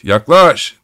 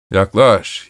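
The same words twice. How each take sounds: First: High, loud call; shouting. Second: Said in the usual way. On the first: A narrator's reading. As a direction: shout the word yaklaş up and out. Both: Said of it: "diye haykırıyordu".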